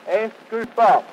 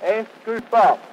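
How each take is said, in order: Both takes have the same delivery.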